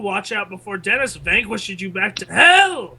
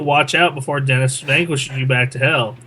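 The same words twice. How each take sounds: First: It is read in a put-on character voice. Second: It is read in a normal speaking voice.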